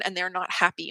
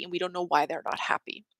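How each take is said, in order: First: Said in the usual way. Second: A sudden hushed whisper, no voice. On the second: Acted. To her audience, echoing the line as a whisper. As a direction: drop to a secret whisper on the repeat.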